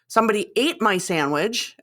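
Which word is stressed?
ate. The stress is on "ate".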